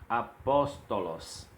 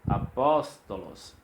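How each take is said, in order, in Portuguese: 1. A tônica está na segunda sílaba. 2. A tônica está na segunda sílaba.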